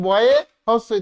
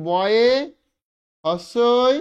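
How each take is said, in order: First: Said in the usual way. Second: বয়ে and হস্যই split with a pause between; spelling it out piece by piece; broken into parts. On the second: Shown as a demonstration. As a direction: say বয়ে, stop, then হস্যই. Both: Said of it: "আমি এটাকে ভেঙে নিচ্ছি".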